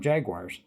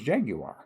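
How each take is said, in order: First: It is pronounced the American way. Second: It is pronounced the British way. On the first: "here in the United States we tend to call them Jaguars" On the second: "the proper pronunciation actually is Jaguar. And that's what they call them in England"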